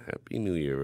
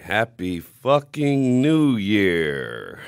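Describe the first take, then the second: First: Said in the usual way. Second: Drawn-out, loud celebratory yell; stretched, booming Happy fucking New Year; shouted greeting. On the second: Real, not acted. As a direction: belt it out slowly like a party toast. Opening shout to the audience.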